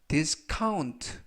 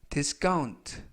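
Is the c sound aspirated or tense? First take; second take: aspirated; tense. First: The c is a breathy aspirated k. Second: The c is a tense unaspirated k. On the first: "C 발음을 카" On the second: "약간 강하게 하셔서 까"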